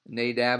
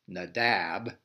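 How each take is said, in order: First: The stress is on the first syllable. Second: The stress is on the second syllable. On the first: This is the common American way. The speaker calls it wrong. "that's the American way to say those names" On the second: This is the Hebrew way. The speaker calls it right. "this would really be Nadab"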